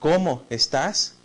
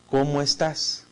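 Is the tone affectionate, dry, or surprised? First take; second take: surprised; dry. First: It sounds surprised and full of admiration. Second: It sounds flat, indifferent and dry. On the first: The speaker is amazed by the listener. "como una expresión admirativa, ¿no? De sorpresa, de admiración" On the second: The speaker does not really care. "En una forma un poco indiferente o seca"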